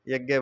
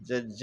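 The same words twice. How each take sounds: First: The word is said in its everyday, common pronunciation. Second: The word is said in its careful, standard pronunciation. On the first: "वैसे यज्ञ बोल सकते हैं" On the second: "सही उच्चारण से यज्ञ है"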